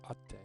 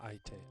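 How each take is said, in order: First: It has a held double t, no i. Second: It has an i sound before a single t. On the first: The speaker calls it right. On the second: The speaker calls it wrong.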